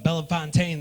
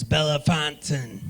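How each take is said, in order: First: Bellefontaine ending in a full "TAYN"; mispronounced town name. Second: Bellefontaine ending like "fountain"; local pronunciation. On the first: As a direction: say Bellefontaine as "bella-fon-TAYN". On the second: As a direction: say Bellefontaine as "bell-FON-tn". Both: Retold or imitated. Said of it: "say the name of your city wrong".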